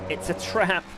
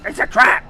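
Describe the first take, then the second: First: It is said in a normal voice. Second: It is said in a put-on character voice.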